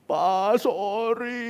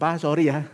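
First: High, drawn-out imitation of a crying child; mock sobbing apology. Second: Offhand sorry in an everyday pitch; light, casual apology. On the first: Small son apologising to his father, mock-tearful and high. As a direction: imitate a tearful little one, voice rising. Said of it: "sampai sesenggukan". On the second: Retold or imitated. Son apologising to father after many times, casual and light. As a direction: toss off the apology as if it means nothing. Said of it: "rasa kok enteng gitu".

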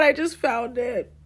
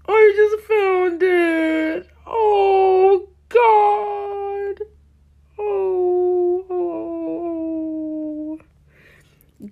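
First: Said in the usual way. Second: High, slow, near-crying wail; anguished wail. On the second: Real, not acted. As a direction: moan it out in real mortification. Shocked at discovered old account.

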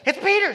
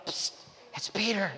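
First: High, loud excited squeal of news; freaking out. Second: Hushed psst at a door; discreet. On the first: Servant girl Rhoda hears Peter at the door, freaking out. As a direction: act out bursting with overjoyed excitement. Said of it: "She just freaks". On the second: Peter knocking discreetly in the night, discreet and hushed. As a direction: act out keeping it down so nobody overhears. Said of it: "knocking on the door discreetly in the night". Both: Retold or imitated.

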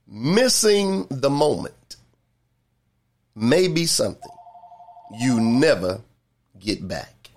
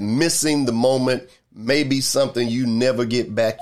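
First: Slow, deliberate phrases with long pauses; real slow. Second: Said in the usual way. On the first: Shown as a demonstration. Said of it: "real slow". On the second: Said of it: "I'm gonna say that one more time".

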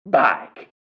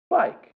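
First: Big, loud, higher exclamation; mimicked prisoner shout. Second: Put-on tiny, very high little-kid voice; cute first-grader voice. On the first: Teacher shows first grader the prisoner's way, loud mimicked shout. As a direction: belt it out to correct the kid. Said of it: "I say, "No, no, no, no, no". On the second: First grader points out a bicycle to teacher, cute high voice. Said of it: "in his cute little first grade voice".

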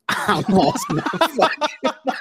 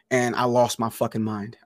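First: Laughing retelling. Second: Said in the usual way. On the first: Shown as a demonstration. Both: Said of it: "repeats it laughing".

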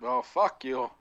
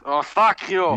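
First: Said in the usual way. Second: Lightly put-on Yiddish accent. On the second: Shown as a demonstration. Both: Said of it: "With my Yiddish accent".

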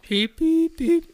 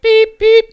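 First: High beep beep beep; squeaky machine beeps; imitated beeping. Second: High, loud beep beep; imitated beeping. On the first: Retelling the dentist's gun beeping at him, high beeps. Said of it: "I'm like". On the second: Imitating the temperature gun, high loud beeps. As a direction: mimic the thermometer gun. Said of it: "it's just like".

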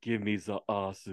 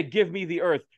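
First: Put-on softer, lower Japanese-accented echo; mimicked Japanese learner's English. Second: Said in the usual way. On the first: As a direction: say "the ass" as "za assu". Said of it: "Japan generally has with certain words". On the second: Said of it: "Now I want you to say".

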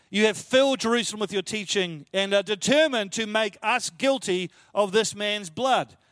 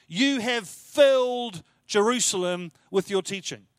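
First: Slowing right down on "guilty of this man's blood"; slow solemn reading. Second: Slow, stressing "You have filled Jerusalem"; emphatic restatement. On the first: Preacher rereading the priest's charge, slow and solemn. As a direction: read it weighty and deliberate. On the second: Preacher savouring the priest's words, slow and emphatic. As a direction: lean on "You" and let it fall. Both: Shown as a demonstration. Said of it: "How impressive is that statement?".

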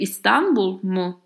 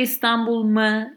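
First: İstanbul mu with a rounded mu; right particle. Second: İstanbul mı as the wrong form; wrong particle. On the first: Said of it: "I say". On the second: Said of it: "I don't say". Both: Shown as a demonstration.

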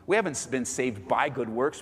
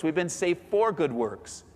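First: "by" picked out, the rest lower; emphasis landing on the word "by"; stress on by. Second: Slower line with "for" picked out; emphasis landing on the word "for"; stress on for. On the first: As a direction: lean on "by" to set up a contrast. Contrasts by with for. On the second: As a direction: lean on "for" as the correction. Contrasts for with by. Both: Shown as a demonstration.

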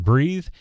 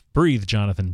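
First: Higher, louder urgent breathe; urgent call. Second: Said in the usual way. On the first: Retold or imitated. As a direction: push it out like a plea. Doctor reviving Jonathan.

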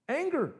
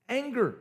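First: "Anger" repeated much higher, falling; stressed Anger. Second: Said in the usual way. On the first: Shown as a demonstration. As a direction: echo "Anger" up high and let it drop. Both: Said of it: "watch this".

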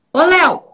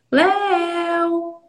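First: Sharp, loud call of the name; "Ô, Léo!" barked loud and high. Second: Name sung on a high held note; sung, call Léo gently in a singsong, like a fairy tale. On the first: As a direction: call Léo out abruptly, breaking the play. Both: Shown as a demonstration. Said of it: "Como que fica pra vocês essa diferença de entonação".

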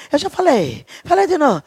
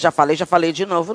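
First: High-pitched parody of scolding; mock exasperated nagging. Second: Said in the usual way. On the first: Parent repeating an order to a child, mock exasperated nagging.

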